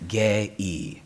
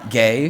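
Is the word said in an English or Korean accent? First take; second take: Korean; English. First: It is said in a Korean accent. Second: It is said in a plain English accent.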